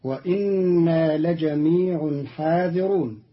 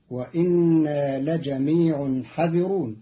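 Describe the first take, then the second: First: حاذرون with a long aa after ha; standard reading. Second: حاذرون shortened to hadhirun; Qalun's reading. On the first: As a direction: stretch the ha of حاذرون. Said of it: "قرأ قالون كلمة حاذرون". (حاذرون بالألف) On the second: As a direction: say حذرون with a short a after ha. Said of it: "بحذف الألف بعد الحاء". (حذرون بحذف الألف) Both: Shown as a demonstration.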